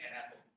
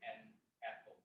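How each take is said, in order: First: 'An' runs smoothly into 'apple' without a break. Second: A glottal stop separates 'an' from 'apple'. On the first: The speaker calls it wrong. "You won't say an apple" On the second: The speaker calls it right. "That, that is the glottal"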